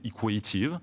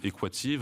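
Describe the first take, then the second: First: The name is pronounced the American way, long A. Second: The name is pronounced the French way. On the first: "en américain, ... avec un A long" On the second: "en français, on va le prononcer Equative"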